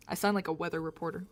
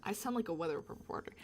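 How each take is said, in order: First: Said in the usual way. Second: Soft unvoiced whisper. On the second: Shown as a demonstration. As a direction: quietly remark in a whisper. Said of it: "whisper take".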